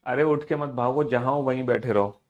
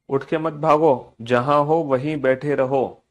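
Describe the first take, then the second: First: Said in the usual way. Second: Slow and emphatic, word by word; slow, firm order. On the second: Real, not acted. Teacher tells pupils to stay seated, slow firm order. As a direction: spell out the order slowly, louder on भागो. Repeats the order slowly and firmly.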